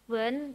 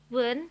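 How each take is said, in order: First: The tone stays level and flat. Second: The tone rises in pitch. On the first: "yang nada datar" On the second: "nada naik"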